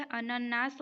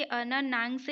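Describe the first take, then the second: First: अनन्नास ending in "naas"; no nasal before the s of अनन्नास; अनन्नास said as a-nan-naas; correct plain ending. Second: अनन्नांश ending in "naans"; अनन्नांश said as a-nan-naangs; wrong nasal ending. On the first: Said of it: "होता है". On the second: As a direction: put a nasal before the last s of अनन्नांश. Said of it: "नहीं होता". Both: Shown as a demonstration.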